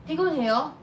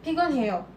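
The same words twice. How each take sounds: First: 피곤해요 with the pitch rising at the end, asking; question tone. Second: 피곤해요 with a falling tune, stating a fact; statement tone. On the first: Teacher contrasting 피곤해요 as a question with a rising tune. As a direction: lift the last syllable of 피곤해요 like a question. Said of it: "that's a question". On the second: Teacher contrasting 피곤해요 as a statement with a falling tune. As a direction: let 피곤해요 drop at the end like a plain statement. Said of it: "that's a sentence". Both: Shown as a demonstration.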